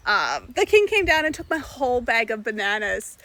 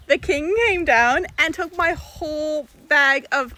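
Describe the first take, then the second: First: Said in the usual way. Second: Loud, high, slow and astonished; can't believe what just happened; excited. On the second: Real, not acted. Telling the camera the king monkey stole bananas, excited.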